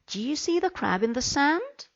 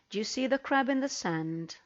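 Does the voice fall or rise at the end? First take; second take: rise; fall. First: The voice rises at the end. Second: The voice does not rise at the end. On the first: The speaker calls it right. "I need my voice to go up" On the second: The speaker calls it wrong. "the intonation is wrong"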